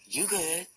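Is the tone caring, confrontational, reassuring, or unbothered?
unbothered. It sounds casual and unbothered, brushing things off. Saying the speaker is not bothered. "I ain't tripping"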